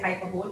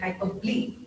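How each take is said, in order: First: The ending is said like the word bowl. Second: The ending is said as two syllables ending ee. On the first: The speaker calls it wrong. "we don't say hyperbole" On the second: The speaker calls it right. "we say hyperbole"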